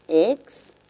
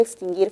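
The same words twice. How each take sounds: First: "Extinguir" broken into ex, tin, guir with long pauses; syllable by syllable. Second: Said in the usual way. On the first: Shown as a demonstration. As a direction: separate each syllable of "Extinguir". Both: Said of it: "Veamos la palabra extinguir fonológicamente".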